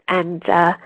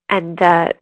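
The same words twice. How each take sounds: Both takes have the same delivery.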